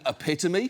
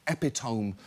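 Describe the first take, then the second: First: The word is given its usual standard pronunciation. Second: The word is pronounced the way it is spelled. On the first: The speaker has heard the word used in conversation. The speaker calls it right. "did you mean epitome?" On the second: The speaker only knew the word from reading. The speaker calls it wrong. "you didn't know that you were wrong"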